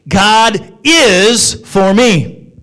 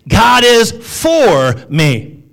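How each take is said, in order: First: The stress falls on the word is. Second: The stress falls on the word for.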